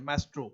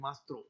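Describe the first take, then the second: First: The first vowel sounds like the vowel in cat. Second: The first vowel sounds like the vowel in father. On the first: This is how some people commonly read it. "इसको हालांकि कुछ लोग मैस्ट्रो पढ़ते हैं" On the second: This is how it is said in French. "French में इसको मास्त्रो कहते हैं"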